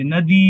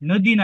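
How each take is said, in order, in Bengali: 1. শেষের i স্বরটি দীর্ঘ করে বলা হয়। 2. শেষের i স্বরটি হ্রস্ব করে বলা হয়। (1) "দীর্ঘকারটাকে আমি দীর্ঘকারই উচ্চারণ করব" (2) "নদী না"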